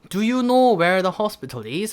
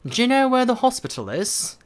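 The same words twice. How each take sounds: First: Do and you are said as separate words. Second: Do and you merge into one syllable. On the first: The speaker calls it wrong. "라고 하지 마시고" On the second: The speaker calls it right. "약간 그런 느낌"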